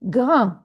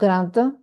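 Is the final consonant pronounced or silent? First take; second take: silent; pronounced. First: The final d is silent. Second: The final d is pronounced. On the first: The speaker calls it right. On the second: The speaker calls it wrong.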